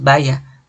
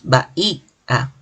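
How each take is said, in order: First: The final vowels merge into one syllable. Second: The final vowels form separate syllables. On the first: The speaker calls it wrong. "no decimos vaya" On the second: The speaker calls it right. "decimos bahía"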